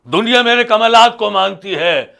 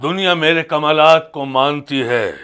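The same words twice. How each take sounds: First: Raised proclamation. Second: Said in the usual way. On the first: Acted. Holy man repeats his boast to the host, raised proclamation. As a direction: lift the whole boast in pitch.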